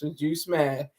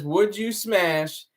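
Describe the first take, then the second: First: Said in the usual way. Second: Slow, separated words; one word at a time. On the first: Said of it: "The son of the sun says". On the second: Retold or imitated. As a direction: space out each word. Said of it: "he's saying one word at a time".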